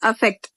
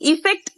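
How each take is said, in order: First: The first vowel sounds like 'a'. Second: The first vowel sounds like 'i'. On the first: The speaker calls it right. "அதோட கரெக்டான pronunciation பாத்தீங்க அப்படின்னா அஃபெக்ட்" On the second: The speaker calls it wrong. "Mostly மிஸ்பிரனவுன்ஸ் வேர்ட்ல இதுவும் ஒண்ணு. இஃபெக்ட் இஃபெக்ட்னு சொல்லுவோம்"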